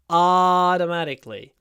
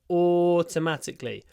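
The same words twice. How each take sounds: First: It is said in an American accent. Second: It is said in a British accent. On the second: "a long or sound"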